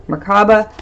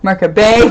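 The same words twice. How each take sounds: First: Merkaba said mer-KAH-ba; pronunciation variant. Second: Merkaba said MAR-ka-bay with a rise; alternate pronunciation. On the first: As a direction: Merkaba with a stressed middle ah. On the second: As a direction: Merkaba ending in bay, rising. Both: Shown as a demonstration. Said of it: "whatever you wanna call it".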